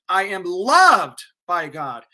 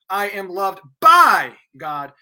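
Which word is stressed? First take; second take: loved; by. First: The stress is on the word loved. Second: The stress is on the word by.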